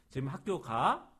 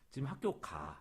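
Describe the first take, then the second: First: The pitch rises at the end. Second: The pitch falls at the end. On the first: It asks whether someone is going to school now. "하면은 의문문이 돼요" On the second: It states that someone is going to school now. "하고 떨어져요"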